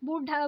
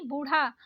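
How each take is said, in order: First: बूढ़ा with stopped ढ; wrong hard ढ. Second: बूढ़ा with aspirated flap ढ़; correct flapped ढ़. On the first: Teacher showing learners the mistake, hard बूढ़ा. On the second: Teacher correcting learners, flapped बूढ़ा. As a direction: flick the ढ़ in बूढ़ा. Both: Shown as a demonstration. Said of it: "नहीं".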